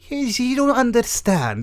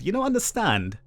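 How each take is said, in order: First: It is said in a put-on character voice. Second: It is said in the speaker's normal voice.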